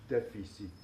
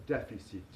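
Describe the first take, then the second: Both takes have the same delivery.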